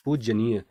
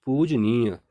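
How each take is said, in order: First: पूजनीय said as the wrong form, doubled j: pujjaniya; wrong spelling said. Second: पूजनीय said correctly as pujniya, single j; correct spelling said. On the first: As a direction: read पूजनीय aloud as the incorrect spelling, pujjaniya. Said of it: "यह यहाँ पर अशुद्ध वर्तनी है". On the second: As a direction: read पूजनीय aloud as the correct form, pujniya. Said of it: "सही वर्तनी होगी पूजनीय". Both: Shown as a demonstration.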